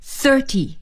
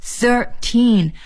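First: Thirty stressed only on the first syllable; one stress. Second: Put-on Thirteen with equal stress on thir and teen; two stresses. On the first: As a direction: punch thir in thirty and let ty fall away. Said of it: "只有一个重音". (thirty 只重读第一音节) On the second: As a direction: hit both thir and teen of Thirteen evenly. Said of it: "在thir和teen上面都要重读". (Thirteen 两个音节都重读) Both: Shown as a demonstration.

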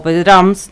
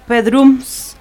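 First: "Pedrams" said with an "ah" in the last syllable; second guess at "Pedrams", open "a" instead of "oo"; alternative pronunciation. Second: "Pedrums" said with an "oo" in the last syllable; first guess at "Pedrums", vowel like "oo"; tentative pronunciation. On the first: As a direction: offer "Pedrams" as "PEH-drahms". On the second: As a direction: sound out "Pedrums" as "PEH-drooms". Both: Shown as a demonstration. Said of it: "no sé cómo se pronuncia".

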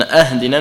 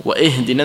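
First: أهدنا begun with "a", "ahdina"; opening hamza with fatha. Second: وإهدنا with an i-sound after wa, "wa-ihdina"; opening hamza with kasra. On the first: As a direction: say أهدنا with an a at the start. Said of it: "لأن أهدنا من الهدية". (أهدنا بفتح الهمزة) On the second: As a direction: use "i" to open the verb in وإهدنا. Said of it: "وإهدنا من الهداية". (وإهدنا بكسر الهمزة) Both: Shown as a demonstration.

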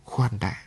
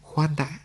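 First: Soft but decisive order to stop; firm command. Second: High, soft plea to wait; landlady gently holds him back, high and hushed; stopping him. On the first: Landlady pushes him away with a firm quiet order. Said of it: "dứt khoát như ra lệnh". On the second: Landlady stops him from leaving, high soft plea. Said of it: "Cô chủ nhà ngăn lại". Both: Acted.

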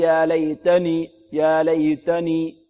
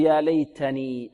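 First: ليتني with the t unaspirated, almost "laydani"; mistaken breathless ta. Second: ليتني with an airy, released t; correct breathed ta. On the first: Teacher imitates a common error, t sounding like dal. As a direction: chant ليتني slowly, turning ت into a d. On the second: Teacher models the correct ta, breath after t. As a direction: slowly let breath follow the ت of ليتني. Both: Shown as a demonstration. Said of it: "يعدم الهمس فيها".

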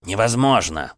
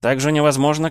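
First: Indignant. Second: Невозможно echoed high and loud, rising; mocking echo. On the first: Acted. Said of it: "сверкнул глазищами Кречет". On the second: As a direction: throw невозможно back, louder and rising. Mocking echo of his word.

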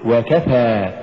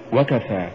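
First: وكفى slow, و set apart and كفى pushed; push after waw. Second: وكفى short, run into one word; wrong stress. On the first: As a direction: lean on the ك in وكفى. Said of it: "قل". (نطق وكفى بدفع الكاف بعد الواو) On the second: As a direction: say وكفى quickly, weight on the و. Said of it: "ولا تقل". (نطق وكفى دون دفع الكاف) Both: Shown as a demonstration.

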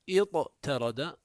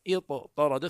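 First: اضطرد with a plain t after emphatic ط, drawn out slowly; original unmerged form. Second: اضطرد with one doubled heavy ط, ittarada; merged form. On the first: Teacher shows the underlying iftaʿala form, اضطرد with light t. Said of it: "إذا جاءوا به على وزن افتعل". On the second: Teacher shows the required merging, اضطرد with doubled heavy ط. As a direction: say اضطرد with the t turned into emphatic ط. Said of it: "ثم لزمهم الإدغام". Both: Shown as a demonstration.

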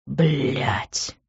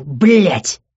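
First: Low, softer groan of defeat; groaned curse. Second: Forceful outburst of swearing; angry curse. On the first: Man giving in to her tears, groaned curse. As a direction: groan the swearword under the breath. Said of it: "простонал он". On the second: Man jumps up from spilled juice, angry curse. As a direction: spit out the swearword angrily. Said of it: "закричав, он вскочил". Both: A narrator's reading.

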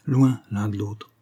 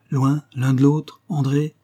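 First: Slow, cold and settled; coldly final. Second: Slow, louder, rising in disbelief; pleading question. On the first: Husband coldly telling his wife they will live apart, slow and final. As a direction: close the matter slowly and coolly. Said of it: "husband's cold final words". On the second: Wife pleading with her departing husband, slow rising plea. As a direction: beg him to take it back. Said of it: "d'un geste suppliant". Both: A narrator's reading.

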